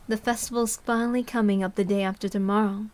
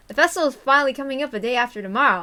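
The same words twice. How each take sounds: First: Said in the usual way. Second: Louder, fast retake in Tomitake's voice. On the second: Shown as a demonstration. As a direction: redo it as the cheerful photographer. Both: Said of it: "oops, that's Tomitake. Let's try again".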